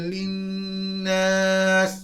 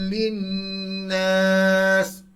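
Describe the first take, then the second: Both takes have the same delivery.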